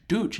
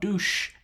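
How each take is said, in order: First: The word ends with a ch sound. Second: The word ends with a sh sound. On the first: The speaker calls it right. "Dutch, not douche. I want to hear a ch ch ch" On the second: The speaker calls it wrong. "not douche. You can't hear the sh"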